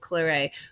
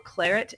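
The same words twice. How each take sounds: First: It is pronounced with French sound rules. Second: It is pronounced with English sound rules. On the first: "the Frenchy way" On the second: "claret instead of"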